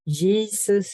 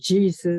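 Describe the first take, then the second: First: The J is said the Swedish way. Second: The J is said the English way. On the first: This is how Swedes say it. "we do the J, Jesus" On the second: This is how English speakers say it. "instead of Jesus"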